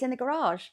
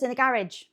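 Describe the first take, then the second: First: Garage is said in the classy-sounding way. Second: Garage is said in the common-sounding way. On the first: The speaker calls it right. "It sounds much nicer" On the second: The speaker calls it wrong. "it sounds really common, doesn't it?"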